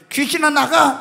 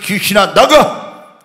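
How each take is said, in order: First: It is said weakly, without force. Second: It is said forcefully, with a firm voice. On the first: The spirit thinks it is nothing serious. The speaker calls it wrong. "이렇게 하면 안 돼요" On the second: The spirit is overpowered. The speaker calls it right. "목소리부터 딱 해가지고"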